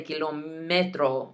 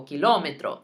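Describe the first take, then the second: First: "kilómetro" as "kee-lo-MEH-tro", weight on MEH; wrong stress. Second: "kilómetro" as "kee-LO-meh-tro", stress on LO; emphasis on the O. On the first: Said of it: "don't say kilómetro". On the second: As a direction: put the weight on the O of "kilómetro". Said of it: "Emphasis on the O". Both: Shown as a demonstration.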